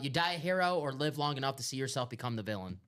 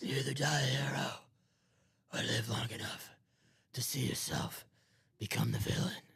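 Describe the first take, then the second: First: It is said in his normal voice. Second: It is said in a Batman impression voice.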